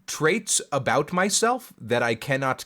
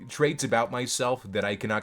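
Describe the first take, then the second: First: The phrase is spoken slowly and deliberately. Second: The phrase is spoken at a normal pace.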